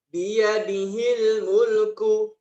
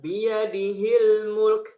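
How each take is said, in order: First: The last word ends with its full final vowel. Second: The last word ends clipped, without its final vowel. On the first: It is read with its vowel marks as written. The speaker calls it right. "tadi di surah Al-Mulk ayat pertama juga begitu" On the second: This is how it is read when stopping. The speaker calls it wrong. "Jadi bukan"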